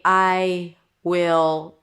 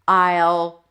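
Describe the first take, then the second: First: Two full words, drawn out slowly. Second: One short contracted word, then a pause. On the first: "taking your time here" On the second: "or I'll pause"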